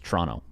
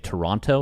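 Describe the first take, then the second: First: The word is said quickly, syllables run together. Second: All syllables of the word are said fully.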